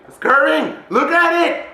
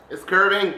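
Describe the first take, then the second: First: High, loud exclamation; excited. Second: Said in the usual way. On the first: Real, not acted. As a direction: burst out, pitch climbing in amazement. Repeats it, getting carried away.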